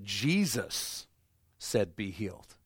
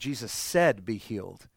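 First: The stress is on the word Jesus. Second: The stress is on the word said.

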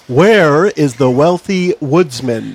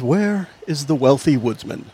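First: The line is spoken at a louder volume. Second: The line is spoken at a normal, softer volume.

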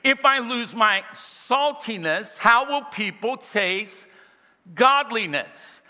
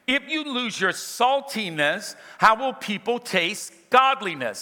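First: It is read slowly and deliberately. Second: It is read at a normal pace.

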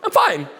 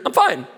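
No difference in how they are said.

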